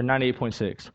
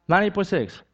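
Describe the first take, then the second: First: Said in the usual way. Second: Ninety-eight point six said higher, each number stressed; preacher stressing the normal temperature as proof of the miracle; emphatic repeat. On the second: Real, not acted. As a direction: repeat it as the punchline, lifting the pitch.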